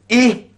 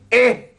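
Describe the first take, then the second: First: The vowel is a close 'ih' sound. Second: The vowel is an open 'eh' sound. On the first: The speaker calls it right. "Kena baca apa? Ih" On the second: The speaker calls it wrong. "Tak boleh baca eh"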